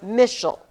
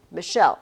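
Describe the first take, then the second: First: "Michelle" said MISH-ul, first syllable punched; wrong first-syllable stress. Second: "Michelle" with the weight on "-chelle"; stress on second syllable. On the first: Teacher showing the wrong scansion, "Michelle" stressed on the start. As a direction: hit the start of "Michelle" and swallow the end. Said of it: "I'm not Michelle". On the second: Teacher showing how her name scans, "Michelle" stressed on the end. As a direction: say "Michelle" light then strong, mi-SHELL. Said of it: "that's how I would scan my name". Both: Shown as a demonstration.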